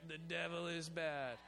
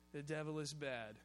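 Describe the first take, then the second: First: "The devil is bad" said slowly, leaning on "devil"; deliberate preacher emphasis; slower emphatic. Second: Said in the usual way. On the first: Shown as a demonstration. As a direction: draw it out and hit "devil". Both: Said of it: "let's do that".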